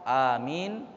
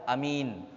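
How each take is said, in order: First: The first vowel is held long. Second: The first vowel is kept short. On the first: "dibaca amin hanya di mat dua harokat" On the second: "tidak di mat, dibaca amin"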